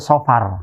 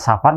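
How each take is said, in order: First: The first vowel sounds dark, like 'o'. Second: The first vowel sounds open, like 'a'. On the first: It names the second month of the calendar. The speaker calls it right. "secara pelafalan sih yang tepat itu Sofar" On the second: It sounds like the word for travelling. The speaker calls it wrong. "Kalau nanti pelafalannya Safar nanti e, tertukar dengan istilah Safar artinya bepergian"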